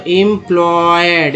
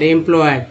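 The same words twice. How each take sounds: First: Slow syllable by syllable: employed with एम drawn out; slow demo. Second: Said in the usual way. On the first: Shown as a demonstration. Teacher showing students the word, slowly sounded out. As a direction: spell out employed slowly for the class. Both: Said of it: "ईएम को एम बोलते हैं".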